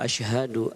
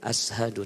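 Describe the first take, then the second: First: The first consonant is an sh sound. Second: The first consonant is a plain s sound. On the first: The speaker calls it right. "menggunakan shin" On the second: The speaker calls it wrong. "bukan ashadu"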